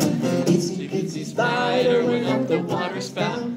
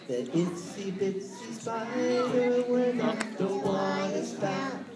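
First: It is said fast. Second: It is said at a normal pace.

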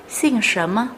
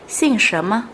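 The two takes are said the same way.

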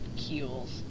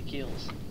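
First: The word is said in a mimicked non-English accent. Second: The word is said in the speaker's usual accent.

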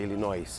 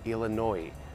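First: The final S is sounded at the end. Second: The final S is silent at the end. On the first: The speaker calls it wrong. "não é Illinois" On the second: The speaker calls it right. "é Illinois"

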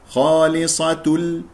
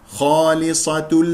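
No difference in how they are said.

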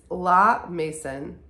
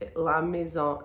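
First: The name is pronounced with English sounds. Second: The name is pronounced with French sounds. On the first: "it's La Mason in English" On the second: "La Maison in French"

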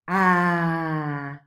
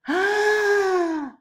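First: The sound is voiced while air flows outward. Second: The sound is voiced while air flows inward. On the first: "the pulmonic aggressive airstream will be ah" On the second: "but ingressive will be ah"

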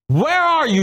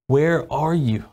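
First: It sounds harsh and angry, like a scolding. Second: It sounds sad and hurt, like a grieving dad.

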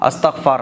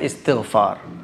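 First: The word starts with an 'a' vowel. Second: The word starts with an 'i' vowel. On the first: The speaker calls it wrong. "अस्तग़फ़ार नहीं" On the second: The speaker calls it right. "सही जो नाम है वो है इस्तग़फ़ार"

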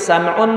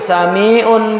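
First: The middle vowel is dropped, giving two syllables. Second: The middle vowel is kept, giving three syllables. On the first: The shortened form fits the poem's meter. The speaker calls it right. "Itu dibuang ianya, sebetulnya sami'un. Ya, itu kena darurat syair" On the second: The full form breaks the poem's meter. The speaker calls it wrong. "Karena kalau ... sami'un ... enggak cukup"

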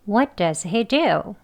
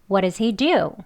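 First: 'Does' is weak with a plain D sound. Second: 'Does' has a flapped, L-like D sound. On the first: "이렇게 약하게 발음하면 되겠습니다" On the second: "D를 디귿 발음하지 않고 네, 리을 발음해야죠"

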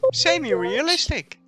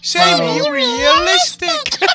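First: It is said in the speaker's ordinary voice. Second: It is said in a put-on, altered voice.

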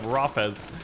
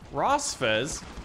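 First: The name has no S sound before the F. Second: The name has an S sound before the F. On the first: The speaker calls it right. "Rosfez instead of Rafez" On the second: The speaker calls it wrong. "That's how you pronounce that name if you have dyslexia like me"

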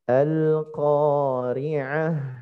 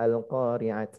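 First: The word ends with an h sound. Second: The word ends with a t sound. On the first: The speaker calls it right. "dengan membunyikan bunyi ha" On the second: The speaker calls it wrong. "Jadi bukan ta al-qari'at"

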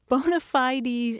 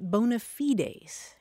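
First: It is said the usual American English way. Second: It is said the classical Latin way. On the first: "usually the pronunciations heard in the United States" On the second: "in Latin, you pronounce it"

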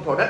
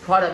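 First: The stress is on the second syllable. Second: The stress is on the first syllable. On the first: The speaker calls it wrong. "không có product đâu nha" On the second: The speaker calls it right. "Product âm thứ nhất"

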